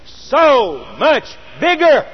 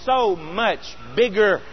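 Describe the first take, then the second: First: "so much bigger" slow and higher, each word punched; "so much bigger" drawn out, every word stressed; emphatic repeat. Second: Said in the usual way. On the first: Real, not acted.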